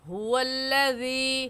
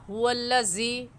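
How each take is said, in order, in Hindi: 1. बीच का व्यंजन नरम, हल्का dh है। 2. बीच का व्यंजन भारी, मोटा z है। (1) "नरमी से पढ़ेंगे" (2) "ज़ाल की जगह ज़ा हुवल्लज़ी नहीं पढ़ेंगे"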